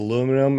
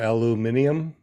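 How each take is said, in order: First: It is said the American way, without the extra syllable. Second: It is said the Australian way, with an extra syllable.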